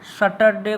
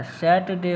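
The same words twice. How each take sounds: First: सैटरडे with the r sounded; wrong pronunciation. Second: सैटरडे said as "सैटडे" with no r, a little slower; r silent. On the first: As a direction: say सैटरडे with a rolled r in the middle. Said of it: "सैटरडे नहीं होता है". (सैटरडे में र साफ़ बोलना, गलत उच्चारण) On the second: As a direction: drop the r in सैटरडे and say it slowly. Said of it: "र जो है ना साइलेंट हो जाता है". (सैटरडे बिना र के, "सैटडे" जैसा) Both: Shown as a demonstration.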